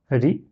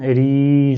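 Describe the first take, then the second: First: Said in the usual way. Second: Ri with the i drawn out long; prolonged vowel. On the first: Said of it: "je prolonge pas". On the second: Shown as a demonstration. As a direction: stretch the i in "Ri" and sustain it. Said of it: "je prolonge".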